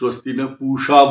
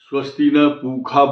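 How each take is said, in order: First: The last word has a 'sh' sound. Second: The last word has a 'kh' sound. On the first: This is how some other people say it. "कोई स्वस्ति न पूषा बोलता है" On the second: This is how it is said in some places. "कहीं स्वस्ति न पूखा बोलते हैं"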